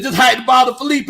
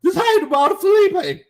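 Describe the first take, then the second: First: A real squeak while reading the comment aloud. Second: Much higher, squeaky redo of the line; replaying the voice crack for the chat, squeaking; deliberate squeak. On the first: Real, not acted. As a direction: pitch cracks high on Felipe, half shouted. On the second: Shown as a demonstration. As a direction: copy the crack on purpose, high on Felipe. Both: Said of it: "y'all heard my voice squeak".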